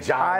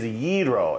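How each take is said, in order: First: The word does not begin with a Y sound. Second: The word begins with a Y sound. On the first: This is the common way people say it. The speaker calls it wrong. "a lot of people say gyro" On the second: This is the correct way to say it. The speaker calls it right. "the correct pronunciation is gyro. ... spell it phonetically with a Y-E-E"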